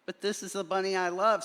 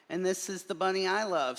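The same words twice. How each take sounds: First: Fast, higher declaration of love; Wesley insisting he loves the bunny; earnest protest. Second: Quick, higher loving reply; earnest protest. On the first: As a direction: plead your love quickly. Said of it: "said Wesley". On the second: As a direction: answer with devotion. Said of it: "said me, Marlon Bundo". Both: A narrator's reading.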